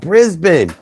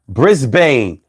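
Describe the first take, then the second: First: It is pronounced in an Australian way. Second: It is pronounced in an American way. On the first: The speaker calls it right. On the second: The speaker calls it wrong. "I was stuck in American English"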